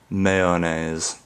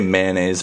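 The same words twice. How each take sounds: First: The word is said in a goofy, playful way. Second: The word is said in its plain, everyday way. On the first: The speaker is being silly. "feeling like a like a goofball" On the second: This is the usual way. "I say mayonnaise"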